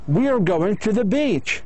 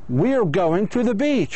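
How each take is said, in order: Both takes have the same delivery.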